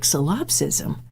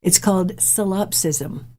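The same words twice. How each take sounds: First: Puzzled repeat. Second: Said in the usual way. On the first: Retold or imitated. Mom repeats unfamiliar word.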